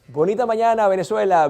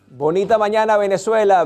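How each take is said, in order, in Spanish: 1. El tono pasa repetidamente de graves a agudos. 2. El tono se mantiene plano y monótono en todo momento.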